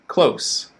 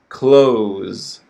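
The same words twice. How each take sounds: First: The vowel is short and the ending is voiceless. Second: The vowel is long and the ending is voiced. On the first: "s is unvoiced, so the vowel sound is shorter" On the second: "focus on the vowel sound in the first word"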